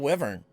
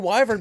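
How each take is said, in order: First: The first syllable rhymes with 'give'. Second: The first syllable rhymes with 'why'.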